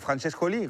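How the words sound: The name is said with a French accent.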